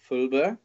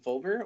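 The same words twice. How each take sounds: First: The surname is pronounced the German way. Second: The surname is pronounced the English way.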